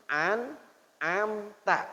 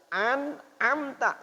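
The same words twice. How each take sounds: First: "an'amta" drawn out slowly with a throaty ain; ain version. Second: "An'amta" slow with a clean glottal hamzah; hamzah version. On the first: Teacher contrasts the two readings, "an'amta" with ain. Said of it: "Antara an'amta dengan". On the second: Teacher gives the hamzah reading of "An'amta". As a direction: say "An'amta" with a crisp stop. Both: Shown as a demonstration.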